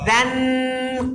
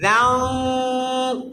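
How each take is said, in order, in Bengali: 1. "n" ধ্বনিটি জিহ্বার আগা দিয়ে স্পষ্টভাবে উচ্চারিত হচ্ছে। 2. "n" ধ্বনিটি নাসিক্য গুঞ্জনের মধ্যে চাপা পড়ে আছে। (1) "এটা ভুল, নুনকে ক্লিয়ার সুস্পষ্টভাবে উচ্চারণ করছি" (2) "রান এখান থেকে না বলে কাফের মধ্যে নিয়ে যাবেন"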